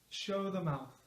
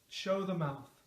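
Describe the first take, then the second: Both takes have the same delivery.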